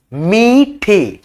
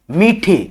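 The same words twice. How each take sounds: First: मीठे drawn out very slowly, syllable by syllable; word stretched slowly. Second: Said in the usual way. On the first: Shown as a demonstration. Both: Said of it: "ठीक है, ऐसे लिखेंगे".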